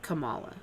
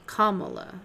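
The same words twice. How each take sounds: First: The first part does not sound like comma. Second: The first part sounds like the word comma. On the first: The speaker calls it wrong. "not Kamala" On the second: The speaker calls it right. "like C O M M A L E"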